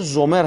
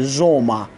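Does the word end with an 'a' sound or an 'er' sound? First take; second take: er sound; a sound. First: The word ends in an 'er' sound with r. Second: The word ends in an open 'a' sound. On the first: The speaker calls it wrong. "اگر زومر هم بگید اشتباه نیست" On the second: The speaker calls it right. "تلفظ بهترش زوما"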